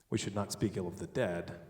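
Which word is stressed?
dead. The word 'dead' is stressed. Bad things may be said about the living. "The living, we should speak ill of"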